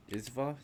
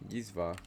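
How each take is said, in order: First: Izva said with no Y sound, rising like a question; Izva without Y. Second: Yizva said with a clear Y at the start, falling; Yizva, firm Y onset, settled falling tune. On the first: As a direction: Izva opening on a bare I sound, unsure. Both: Shown as a demonstration.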